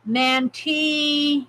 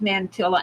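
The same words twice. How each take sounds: First: The double L is said as a Y sound. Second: The double L is said as an L sound. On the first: The speaker calls it right. "L in Spanish is Y. Oh, so Mantilla" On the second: The speaker calls it wrong. "It's not pronounced Mantilla"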